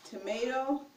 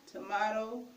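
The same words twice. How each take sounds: First: Said in the usual way. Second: "tomato" with "ah" in the middle; tomahto pronunciation. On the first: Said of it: "those are the words for food". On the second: Shown as a demonstration. Teacher recaps for viewers, "tomato" as to-MAH-to. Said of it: "pronounce it tomato".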